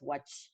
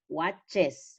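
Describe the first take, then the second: First: The plural ending adds no extra syllable. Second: The plural ending adds a full extra syllable. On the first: The speaker calls it wrong. "no es watch" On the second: The speaker calls it right. "se pronuncia entero"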